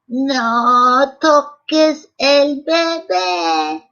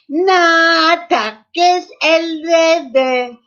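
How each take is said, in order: First: It is said in an old woman's voice. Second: It is said in a little boy's voice.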